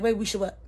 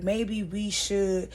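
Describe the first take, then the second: First: Cutting in. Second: Very slow, tentative start to a sentence; hesitant suggestion. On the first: Woman cutting him off mid-sentence, challenging. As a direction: jump in and question the suggestion. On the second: [name] starting to propose something, tentative and slow. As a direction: draw it out, leaving it hanging. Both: Retold or imitated. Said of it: "she cut him off".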